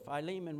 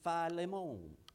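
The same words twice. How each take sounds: First: It is said in the speaker's plain accent. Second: It is said in a French accent.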